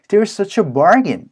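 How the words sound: It is said in a positive, pleased tone. The items really are cheap. "긍정적인 뭔가 뉘앙스를 만들어 주시는 거"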